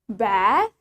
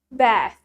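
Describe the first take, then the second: First: The A vowel is long. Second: The A vowel is short. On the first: "In British, we say it bath ... Yang British lebih panjang" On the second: "While in American, we say it bath ... yang American shorter"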